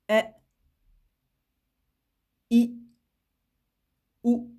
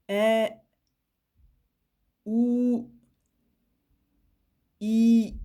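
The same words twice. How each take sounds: First: "E, I, ou" each cut to one beat; short vowels, one beat. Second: "E, ou, I" each held for two beats, louder; long vowels, two beats. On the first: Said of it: "je vais le faire avec le son". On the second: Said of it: "Alors que pour la voyelle longue". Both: Shown as a demonstration.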